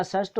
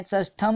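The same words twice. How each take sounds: First: षष्ठ ending on "th"; no final m. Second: षष्ठम ending in "tham"; added m. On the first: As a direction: say षष्ठ as one beat, shashth. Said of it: "षष्ठ होता है". (षष्ठ बिना "म" के) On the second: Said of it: "षष्ठम नहीं होता". (षष्ठम के अंत में "म" जोड़ें) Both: Shown as a demonstration.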